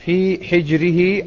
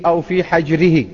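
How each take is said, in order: First: حجره with a short i after the ح, "hijrihi"; kasra on حجره. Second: حجره with a short a after the ح, "hajrihi"; fatha on حجره. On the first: Teacher reading the hadith's first variant, حجره said "hijrihi" with kasra. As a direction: say حجره with the ح vowelled by kasra, as "hijr". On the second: Teacher reading the hadith's other variant, حجره said "hajrihi" with fatha. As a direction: say حجره with the ح vowelled by fatha, as "hajr". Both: Shown as a demonstration. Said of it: "بفتح الحاء المهملة وكسرها".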